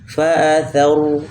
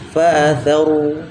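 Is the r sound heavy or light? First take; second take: heavy; heavy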